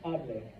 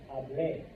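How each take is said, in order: First: The stress is on the first syllable. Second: The stress is on the last syllable. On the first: It is a formal command to speak. "it's actually the formal command, speak" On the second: It means I spoke. "Emphasis on the E"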